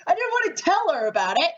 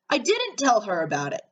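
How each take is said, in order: First: High, fast, rattled objection; blurting it out in disbelief; alarmed protest. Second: Said in the usual way. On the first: Real, not acted. Player protesting that the doll was meant as a surprise, high, fast and rattled.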